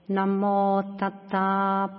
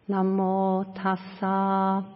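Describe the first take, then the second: First: The second word is said with a t sound. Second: The second word is said with an s sound. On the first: "the Burmese pronounce the Pali slightly different. So they would say" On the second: "just as we recited here"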